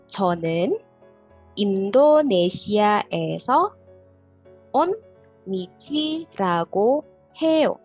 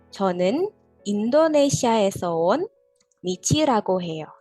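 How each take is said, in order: First: It is said slowly. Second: It is said fast.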